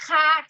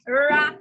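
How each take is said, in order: First: Each syllable starts with an H sound. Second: Each syllable starts with an R sound. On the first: The speaker calls it wrong. "Nunca vai ser ra, ré, ri, ró, ru. Isso é H" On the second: The speaker calls it right. "o R ele vai ser sempre um som de ra"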